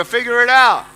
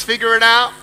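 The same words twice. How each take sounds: First: Forceful, louder prompt for the crowd; emphatic and loud, rallying the audience; stronger. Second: Said in the usual way. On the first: Shown as a demonstration. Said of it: "say it stronger". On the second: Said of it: "Come on, say it stronger".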